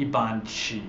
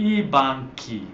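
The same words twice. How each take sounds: First: BANCHI said with a soft "chee", as "bahn-chee"; wrong soft sound. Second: BANCHI with a hard k, "bahn-kee"; hard k sound. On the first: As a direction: soften the ch in banchi to English "ch". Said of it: "if we had that aka out". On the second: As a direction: say banchi crisply as "BAN-kee". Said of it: "hard sound". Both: Shown as a demonstration.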